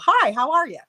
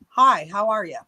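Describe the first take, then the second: First: It is said warmly, with a smile. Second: It is said flatly, without a smile.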